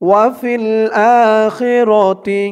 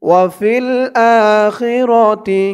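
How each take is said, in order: No difference in how they are said.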